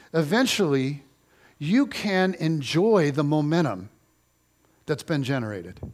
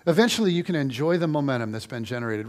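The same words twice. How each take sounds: First: Slow emphatic. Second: Said in the usual way. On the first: Shown as a demonstration. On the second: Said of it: "Eventually ... that's been generated".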